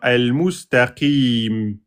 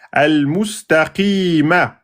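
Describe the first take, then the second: First: The word ends on a consonant. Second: The word ends on a short vowel. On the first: The reader stops on this word. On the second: The reading continues without stopping.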